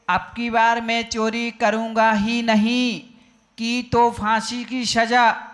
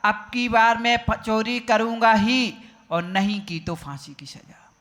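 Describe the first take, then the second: First: The pause comes after 'नहीं'. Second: The pause comes after 'ही'.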